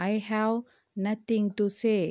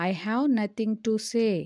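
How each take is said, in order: First: Teacher chunking the sentence for learners; split in two chunks. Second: Said slowly as one phrase; teacher saying the whole sentence slowly; slow model sentence. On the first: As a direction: pause after "I have" before "nothing to say.". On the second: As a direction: read "I have nothing to say." slowly in one go. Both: Shown as a demonstration. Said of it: "దీన్ని ఇంగ్లీష్లో ఏమనాలి?".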